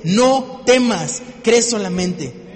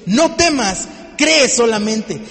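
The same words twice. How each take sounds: First: "No temas, cree solamente" said with loud force that drops away on "cree solamente"; "No temas" starts strong, then "cree solamente" falls off; fading strength. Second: "No temas, cree solamente" shouted slowly and loudly, with "cree" hit hard; slow, shouted "No temas, cree solamente" with no fading; full force shout. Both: Shown as a demonstration. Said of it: "¿Ves el decaimiento en la fuerza?".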